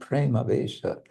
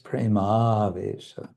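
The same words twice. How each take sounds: First: The vowel before 'vesha' is short. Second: The vowel before 'vesha' is long. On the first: The speaker calls it wrong. "it should not be mispronounced. It's not" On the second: The speaker calls it right. "Avesha, long"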